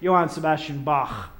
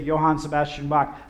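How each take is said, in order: First: Bach ends in a throaty ch sound. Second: Bach ends in a hard k sound. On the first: The speaker calls it right. "they get the little ch in the throat" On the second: The speaker calls it wrong. "they never say"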